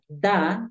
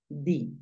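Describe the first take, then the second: First: The word ends with an 'a' vowel sound. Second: The word ends with an 'i' vowel sound. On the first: "lo puedes pronunciar da" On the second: "en algunos casos obligatorios di"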